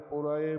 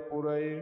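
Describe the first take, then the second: No difference in how they are said.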